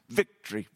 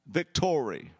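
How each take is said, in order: First: The word is said with two syllables. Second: The word is said with three syllables. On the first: The speaker calls it wrong. "two syllables" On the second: The speaker calls it right. "say it right"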